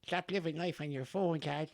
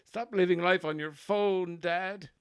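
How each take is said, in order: First: High-pitched put-on Offaly farmer, gentler, at normal loudness; baby son's Offaly farmer voice. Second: High-pitched and louder put-on Offaly farmer scolding Dad; baby son's Offaly farmer voice. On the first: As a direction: repeat the scolding in a high voice, less pushed. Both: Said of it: "that's his voice".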